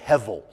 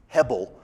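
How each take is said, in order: First: The middle consonant is a v sound. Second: The middle consonant is a b sound. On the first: "it doesn't have the, that little dot, so we say hevel" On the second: "you'll see it written in there in English because it's the B letter"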